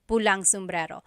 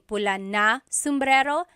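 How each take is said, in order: First: Pula and na merge into one word, pulang. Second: Pula and na are said as separate words. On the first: "it's pulang sombrero" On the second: "Instead of saying pula na sombrero"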